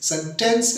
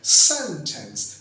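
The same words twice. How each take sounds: First: The stress is on the second syllable. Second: The stress is on the first syllable. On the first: To give a punishment, used as a verb. The speaker calls it wrong. "Sentence नहीं कहना, क्योंकि उसके मायने होते हैं सजा देना" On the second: A group of words forming a statement. The speaker calls it right. "वो लफ्ज पे पहले सेलेबल पे जोर आता है।"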